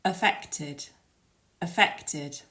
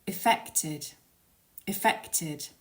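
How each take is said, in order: First: 'Affected' opening on a weak 'uh', stress on FECT; affected with schwa. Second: 'effected' opening on a short 'ih', stress on FECT; effected, initial i. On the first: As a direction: say 'Affected' as uh-FEK-tid, clearly modelled. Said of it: "it's that initial vowel sound". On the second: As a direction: say 'effected' as ih-FEK-tid, clearly modelled. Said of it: "And the second one". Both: Shown as a demonstration.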